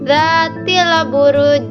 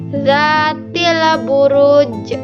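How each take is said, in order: First: The final j ends flat with no bounce. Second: The final j ends with a strong echoing bounce. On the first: The speaker calls it wrong. "Bacaan yang salah" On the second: The speaker calls it right. "kita harus memantulkan yang kuat"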